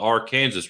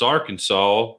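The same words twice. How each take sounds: First: It is said the way Kansas says it. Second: It is said the way the state says it. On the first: This names the river in Kansas. "the Arkansas River in Kansas is the Arkansas River" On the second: This names the state. "in Arkansas, it's Arkansas"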